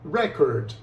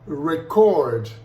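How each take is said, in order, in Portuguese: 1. A tonicidade está na primeira sílaba. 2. A tonicidade está na segunda sílaba.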